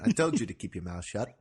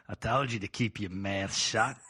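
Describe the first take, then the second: First: Weak attempt at an Aussie accent; failed Australian accent. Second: Broad put-on Aussie accent; Australian accent. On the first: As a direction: try an Australian accent and miss. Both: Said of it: "I can't do the accent".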